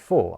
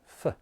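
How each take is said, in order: First: The vowel is full and clearly pronounced. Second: The vowel is reduced almost to nothing. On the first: The speaker calls it wrong. "I wouldn't normally say for" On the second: The speaker calls it right. "I would normally say f"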